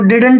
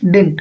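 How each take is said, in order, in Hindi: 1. बीच की d ध्वनि पूरी तरह बोली जाती है। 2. बीच की d ध्वनि छोड़ दी जाती है। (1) "इसको डिडंट बोलते हैं कुछ लोग" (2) "but the right pronunciation is डिंट"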